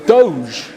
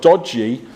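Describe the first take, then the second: First: The word is said as one syllable. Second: The word is said as two syllables.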